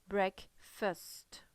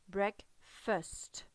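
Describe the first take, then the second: No difference in how they are said.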